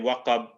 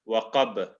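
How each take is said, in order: First: The final consonant ends plainly, without a bounce. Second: The final consonant is released with an echoing bounce. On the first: The speaker calls it wrong. "instead of saying" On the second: The speaker calls it right. "we're gonna say"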